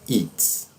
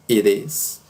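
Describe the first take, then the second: First: It is contracted to one syllable. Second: The t sounds like a soft R. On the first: "e a forma mais comum, que é a do spoken English" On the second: "Como se tivesse um R"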